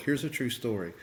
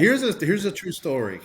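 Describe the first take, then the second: First: Said in the usual way. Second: Louder and higher, leaning in; emphatic announcement. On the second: Real, not acted. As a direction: announce it with weight.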